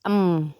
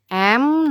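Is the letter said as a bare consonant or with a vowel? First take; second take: bare consonant; with vowel. First: It is said as a bare consonant, no vowel. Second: It is said with a vowel before the consonant. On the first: This is the sound of the letter. "bunyi hurufnya E-nya dihapus" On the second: This is the name of the letter. "nama hurufnya"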